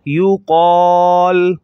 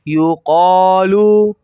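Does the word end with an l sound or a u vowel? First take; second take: l sound; u vowel. First: The word ends on a bare l sound. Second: The word ends with a short u vowel. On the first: The reader stops on this word. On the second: The reading continues without stopping.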